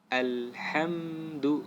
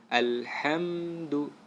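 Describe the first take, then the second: Both takes have the same delivery.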